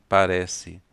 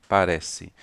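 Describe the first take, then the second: The two takes are said the same way.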